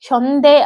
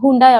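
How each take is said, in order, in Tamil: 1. இது hyon-deh என்று ஒலிக்கிறது, 'ay'யில் முடிகிறது. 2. இது hoon-die என்று ஒலிக்கிறது, 'eye'யில் முடிகிறது. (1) "கொரியன்ல ஹ்யோந்தே அப்படின்னு ப்ரொனவுன்ஸ் பண்ணுவாங்க" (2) "ஹூண்டாய் அப்படின்னு வந்துருச்சுன்னு வைங்க"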